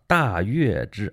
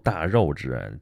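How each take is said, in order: First: The middle syllable is pronounced yue. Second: The middle syllable is pronounced rou. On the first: "我在节目里是这么说的" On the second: "那字儿读大肉支"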